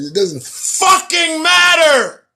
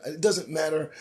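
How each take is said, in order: First: High, loud outburst; yelled at full exasperation; exasperated shout. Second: Subdued dismissal. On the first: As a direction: shout it as the rant boils over. Rant about coworkers boils over. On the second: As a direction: toss it off quietly. First, subdued take before the outburst. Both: Real, not acted.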